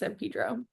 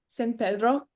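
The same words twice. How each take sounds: First: The name has an anglicized pronunciation. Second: The name has a Spanish-style pronunciation. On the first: The speaker calls it wrong. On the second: The speaker calls it right.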